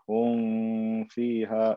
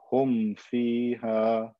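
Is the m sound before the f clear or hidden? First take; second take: hidden; clear. First: The m sound is hidden and not fully closed. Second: The m sound is pronounced fully and clearly. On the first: The speaker calls it wrong. "Don't say hum fiha. That's khata, wrong" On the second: The speaker calls it right. "pronounce the meme clearly"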